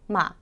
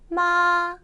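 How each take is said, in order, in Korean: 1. 이 음절은 짧고 가볍게, 살짝 떨어져요. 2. 이 음절은 높고 평평하게 유지돼요. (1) "바로 경성 이어지죠" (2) "일성 마"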